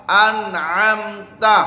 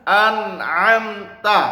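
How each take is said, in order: The two takes are said the same way.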